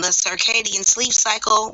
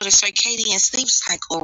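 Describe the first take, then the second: First: It is said in his normal voice. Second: It is said in a softened voice.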